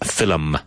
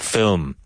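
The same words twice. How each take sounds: First: The word is said with two syllables. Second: The word is said with one syllable. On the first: The speaker calls it wrong. "which most Irish people pronounce as film, with two syllables" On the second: The speaker calls it right. "it's correctly pronounced film"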